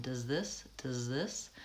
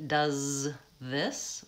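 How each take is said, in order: First: "Does this" with the Z gliding straight into TH; Z glides into TH. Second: With a break. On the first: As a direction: link "Does this" smoothly, no gap between Z and TH. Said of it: "I go from the Z sound right into the T H sound". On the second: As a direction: pause between does and this. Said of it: "with a break". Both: Shown as a demonstration.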